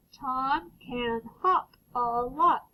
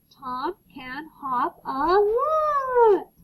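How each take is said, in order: First: Tom can hop a lot read slowly and evenly; slow clear read. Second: Tom can hop a lot said slowly, higher and louder, with excitement; excited. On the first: Teacher reading the sentence with a period. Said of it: "let's read it". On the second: Teacher reading with an exclamation mark, excited. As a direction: read it like an exclamation. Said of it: "We're excited". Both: Shown as a demonstration.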